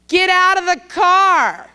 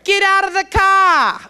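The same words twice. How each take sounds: First: It is said in a plain, neutral accent. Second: It is said in a put-on Boston accent.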